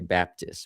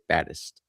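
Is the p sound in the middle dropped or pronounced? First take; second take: pronounced; dropped. First: The p sound in the middle is pronounced. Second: The p sound in the middle is dropped. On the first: "we don't say Baptist" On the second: "we say Baddest. We we leave out the P"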